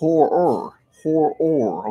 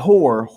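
First: The name is drawn out into two syllables. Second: The name is said as one short syllable. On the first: The speaker calls it right. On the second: The speaker calls it wrong.

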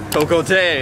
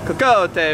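First: It is said with a French accent. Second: It is said with an Italian accent. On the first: "if it was French" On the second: "if it was Italian"

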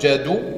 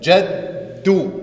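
First: The middle consonant is short and single. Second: The middle consonant is held long, doubled. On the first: "ohne diese Shadda" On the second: "Mit Shadda wird es verdoppelt"

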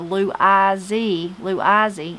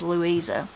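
First: The name ends with an ee sound. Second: The name ends with an uh sound. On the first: This is how family members said the name. "they called her Lou Izzy" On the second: This is the name as it was written. "her name was Louisa"

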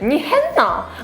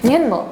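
First: The dialect intonation is overdone and exaggerated. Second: The dialect intonation is mild and understated. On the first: This is how outsiders imitate the dialect. The speaker calls it wrong. "이런 거 안 하잖아요" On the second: This is how locals actually speak. The speaker calls it right. "우리는 니 했나? 이 정도지?"

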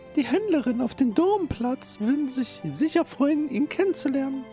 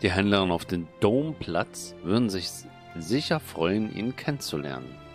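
First: It is said in Petanina's character voice. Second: It is said in the narrator's own voice.

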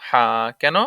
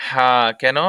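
Both takes have the same delivery.

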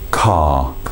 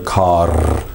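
First: The word ends without an R sound. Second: The word ends with a clear R sound. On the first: The speaker calls it right. "we don't pronounce that final R" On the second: The speaker calls it wrong. "There's no car, nothing like that"

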